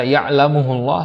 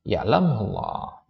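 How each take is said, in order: First: Ya'lamuhullah said with an extra hu, as a mistake; teacher mimics the wrong ya'lamuhullah, quick and light; wrong reading. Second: Ya'lamullah read with the final m, no added hu; teacher models the correct form ya'lamullah, slow and clear. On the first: Teacher warns students: the wrong reading ya'lamuhullah, said quickly. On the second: Teacher to students: the correct ya'lamullah, read slowly. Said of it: "Jawab syaratnya ya'lamullah". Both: Shown as a demonstration.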